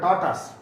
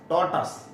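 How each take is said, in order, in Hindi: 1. यह शब्द छोटी 'tus' आवाज़ से खत्म होता है। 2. यह शब्द छोटी 'tus' आवाज़ से खत्म होता है।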